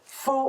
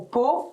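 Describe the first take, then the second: First: The word begins with an F sound. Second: The word begins with a P sound. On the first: This is how we say it. "nous on prononce faux" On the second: This is how some other people say it. "ou pot selon certaines personnes"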